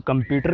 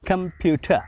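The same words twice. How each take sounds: First: कंप्यूटर with the final r sounded; r pronounced. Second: कंप्यूटर with a silent r, ending on a schwa; British pronunciation. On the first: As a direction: say कंप्यूटर as we usually do, r included. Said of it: "हम लोग कंप्यूटर कहते हैं". (कंप्यूटर आर के साथ) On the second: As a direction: say कंप्यूटर like the English do, no r. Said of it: "अंग्रेज़ लोग जो हैं वो कहते हैं". (अंग्रेज़ी उच्चारण में कंप्यूटर, आर ख़ामोश) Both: Shown as a demonstration.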